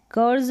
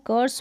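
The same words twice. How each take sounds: First: कर्स misread with a buzzing z ending; wrong CURSE pronunciation. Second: कर्स with a voiceless s at the end; correct CURSE pronunciation. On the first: Teacher warning learners how not to read it, wrong z-ending कर्स. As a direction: say कर्स as "kurz", final s voiced. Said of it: "कर्स नहीं पढ़ेंगे". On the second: Teacher correcting the misreading for learners, कर्स with final s. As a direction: say कर्स as "kurs", never voicing the s. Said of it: "कर्स पढ़ेंगे". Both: Shown as a demonstration.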